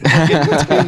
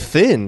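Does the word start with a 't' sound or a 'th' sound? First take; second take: t; th. First: The word starts with a plain t sound. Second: The word starts with a th sound. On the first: The speaker calls it right. "that's technically the correct pronunciation" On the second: The speaker calls it wrong. "We're the idiots saying thin"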